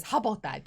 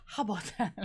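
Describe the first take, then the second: First: Said in the usual way. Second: Imitating Audra's catchphrase delivery. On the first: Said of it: "Audra says". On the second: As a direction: echo her signature line. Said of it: "Just the way she says it".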